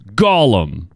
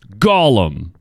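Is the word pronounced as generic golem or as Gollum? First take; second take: Gollum; Gollum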